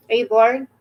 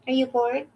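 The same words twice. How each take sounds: First: Said in the usual way. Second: A lightly changed, softer put-on voice. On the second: Owner teasing her bored dog in a mild put-on voice. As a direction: ask it again in a little silly voice.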